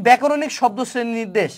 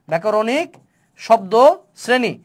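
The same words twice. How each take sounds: First: Said in the usual way. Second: ব্যাকরণিক, শব্দ, শ্রেণী each said alone with a half-second pause between; ব্যাকরণিক শব্দ শ্রেণী dictated slowly, one word at a time. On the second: Shown as a demonstration.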